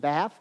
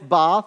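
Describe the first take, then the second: First: It is said with an American accent. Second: It is said with an English accent. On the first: The speaker calls it wrong. "the American pronunciation" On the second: The speaker calls it right. "that's the English pronunciation"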